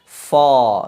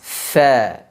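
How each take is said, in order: First: The fa is said with a thick, heavy sound. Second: The fa is said with a thin, light sound. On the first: The speaker calls it wrong. "tidak dibenarkan huruf fa dibaca dengan tebal" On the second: The speaker calls it right. "menghasilkan huruf yang tipis"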